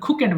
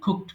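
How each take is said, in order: First: It is two syllables ending in 'ket'. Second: It is one syllable ending in 'kt'. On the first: The speaker calls it wrong. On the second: The speaker calls it right.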